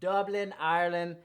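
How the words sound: It is said in an imitated Irish accent.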